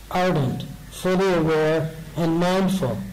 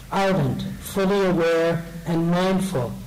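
Both takes have the same delivery.

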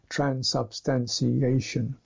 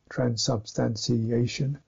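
Both takes have the same delivery.

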